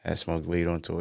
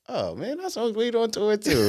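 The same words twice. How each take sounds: First: Said in the usual way. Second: Dad voice, playful. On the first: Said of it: "And I'm like". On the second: Retold or imitated. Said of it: "He was like".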